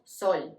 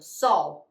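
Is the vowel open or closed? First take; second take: closed; open. First: The O sounds closed. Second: The O sounds open.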